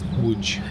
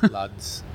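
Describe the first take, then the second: First: The name is said with Polish sounds, like 'woodge'. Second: The name is read with English letter sounds. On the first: The speaker calls it right. "that's Łódź" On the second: The speaker calls it wrong. "You would see that as Lodz"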